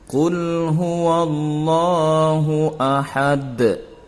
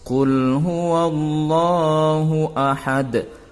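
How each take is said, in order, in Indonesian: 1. Akhiran vokal di akhir kata dihilangkan. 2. Akhiran vokal di akhir kata dihilangkan.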